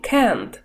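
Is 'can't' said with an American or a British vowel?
American. The vowel is flat and front, like 'e'. "Американцы делают звук экающим"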